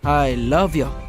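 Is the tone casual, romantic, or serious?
serious. It is said in a serious, earnest tone. "సీరియస్గా చెప్పాలి"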